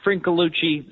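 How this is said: The name is said with American-style pronunciation.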